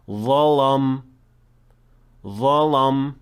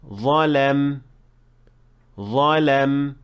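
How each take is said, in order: First: The lam sounds heavy, like the letter before it. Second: The lam sounds light after the heavy letter. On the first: The speaker calls it wrong. "it can cause the same problem" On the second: The speaker calls it right. "it should be"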